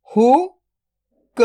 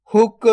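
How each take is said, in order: First: "हुक" split into हु, then क, very slow; drawn-out breakdown of "हुक"; sound by sound. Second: Said in the usual way. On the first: Shown as a demonstration. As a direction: sound out हु ... क with a long gap. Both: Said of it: "तो मिलके बन जाएगा".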